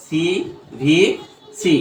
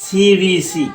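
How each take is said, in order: First: CVC stretched very slowly, a gap after each letter. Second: Said in the usual way. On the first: Shown as a demonstration. Teacher repeating the short-sound rule for students, slow, letter by letter. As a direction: spell out CVC slowly, separating every letter. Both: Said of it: "আর short sound করে কিসের?".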